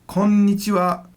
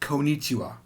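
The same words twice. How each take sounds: First: The middle n sound is held long, doubled. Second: The middle n sound is short and single. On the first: The speaker calls it right. "There's two N's in there" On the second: The speaker calls it wrong. "It's not konnichiwa"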